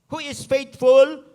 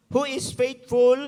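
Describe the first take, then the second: First: Faithful drawn out, loud, rising at the end; slow emphatic faithful. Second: Faithful again, slow and loud with a level close; repeated faithful, slow. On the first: Preacher stressing Timothy is faithful, slow and loud. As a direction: lean hard into faithful, slowly. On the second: Preacher repeating faithful to the church, slow and loud. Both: Shown as a demonstration.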